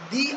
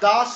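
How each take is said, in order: First: The word ends in a long 'ee' vowel. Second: The word ends in a short 'uh' vowel. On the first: The next word starts with a vowel. "যদি কোনো vowel দিয়ে start হতো সেখানে আমরা দি উচ্চারণ করি" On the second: The next word starts with a consonant. "দা তখনই বলবো যদি ... কনসোনান্ট দিয়ে স্টার্ট হয়"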